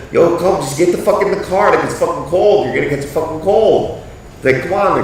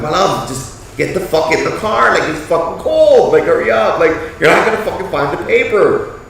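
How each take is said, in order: First: Raised, loud calling voice; yelling at wife. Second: Loud, raised calling voice, a bit higher; yelling at wife. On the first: Husband calling wife back to the car, raised yell. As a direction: urge her back to the car, loud and high. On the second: Husband urging wife into the car from the cold, raised yell. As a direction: hurry her up, loud and high. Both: Retold or imitated. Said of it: "I was just yelling out to her".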